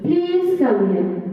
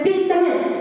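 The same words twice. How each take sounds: First: It is said in a polite tone. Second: It is said in an impolite tone.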